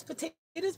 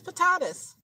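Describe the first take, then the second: First: "potatoes" said with a long ay vowel, po-TAY-toes; "potatoes" pronounced po-TAY-toes with a rising end. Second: "potatoes" said with a broad ah vowel, po-TAH-toes; "potatoes" pronounced po-TAH-toes and falling. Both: Shown as a demonstration. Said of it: "Tomatoes, tomatoes, potatoes, potatoes".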